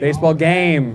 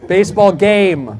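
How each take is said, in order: First: Said in the usual way. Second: Baseball game said slowly and firmly, correcting match. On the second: Shown as a demonstration. Comic correcting a British tourist's word, slow and firm. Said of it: "Did you say baseball match?".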